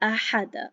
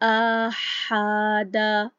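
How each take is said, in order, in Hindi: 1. हर स्वर छोटा रखा जाता है, हर एक की एक मात्रा। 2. बीच वाला स्वर लंबा खींचा जाता है। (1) "ये बिल्कुल ठीक तरीका है, एक हरकत पढ़ी है" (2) "अगर इसको गलत तरीके से पढ़ा जाए"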